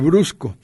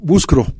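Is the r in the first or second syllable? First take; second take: first; second. First: The r comes in the first syllable. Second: The r comes in the second syllable. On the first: The speaker calls it right. "en lugar de" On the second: The speaker calls it wrong. "dicen es un poco"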